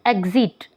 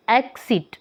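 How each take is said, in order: First: "एग्जिट" with a buzzed g-z in the middle; voiced x sound. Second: "एक्सिट" with a crisp k-s in the middle; voiceless x sound. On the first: Teacher showing students the x cluster, voiced gz sound. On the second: Teacher showing students the x cluster, voiceless ks sound. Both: Shown as a demonstration. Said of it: "क और श को represent".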